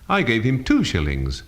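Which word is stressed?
two. The stress falls on the word two. The amount was two, not ten. "not ten"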